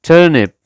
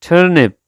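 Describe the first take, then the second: The two takes are said the same way.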